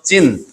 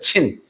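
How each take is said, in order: First: The name begins with a z-like sound. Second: The name begins with a ts-like sound. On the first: This is the spelling with the letter Z. "Z를 써서 진, 진광야 이렇게 말하는 것이 음력에는 맞겠습니다" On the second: This is the original Hebrew form. "히브리어로 말하면 미드바라 친, 그러니까 친입니다"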